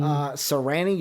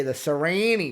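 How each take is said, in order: First: Sirianni with a short flat A, sir-ee-AN-nee; short A pronunciation. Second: Sirianni with a long A, sir-ee-AY-nee; long A pronunciation. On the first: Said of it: "it has an A in there". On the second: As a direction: stretch the A in Sirianni to "ay". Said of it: "the, the long A". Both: Shown as a demonstration.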